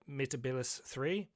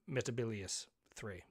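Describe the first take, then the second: First: The name ends in a '-lis' sound. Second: The name ends in a '-lius' sound. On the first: The speaker calls it wrong. "they've actually writ it out uh, phonetically here" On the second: The speaker calls it right. "It's not. It, it's uh"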